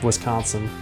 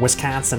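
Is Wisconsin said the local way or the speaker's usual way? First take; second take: usual; local. First: It is said in the speaker's usual accent. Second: It is said in a local Wisconsin accent.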